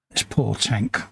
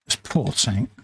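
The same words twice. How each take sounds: The two takes are said the same way.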